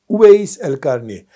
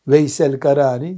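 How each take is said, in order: First: The name starts with Uveys, with a first vowel. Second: The name starts with Veys, without a first vowel. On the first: The speaker calls it right. "Uveys el Karani asıl adı onun" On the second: The speaker calls it wrong. "Veysel Karani yanlış telaffuz ediliyor"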